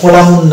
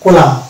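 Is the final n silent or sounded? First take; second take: sounded; silent. First: The final n is pronounced with an extra vowel. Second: The word ends on m with n silent. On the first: The speaker calls it wrong. "এটা কোলামুন না" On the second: The speaker calls it right. "এন এখানে silent থাকছে"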